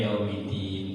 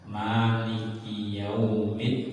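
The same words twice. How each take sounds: First: "Yaumiddin" chanted with the d not doubled; wrong Yaumiddin. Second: "Yaumiddin" chanted slowly with a doubled dd; correct Yaumiddin. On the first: Teacher warns against dropping the doubling, lightly chanted. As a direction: sing "Yaumiddin" with a single short d. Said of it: "Mid tidak ada tasdidnya". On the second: Teacher chants the right reading for students, slow. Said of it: "harus ada tasdidnya". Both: Shown as a demonstration.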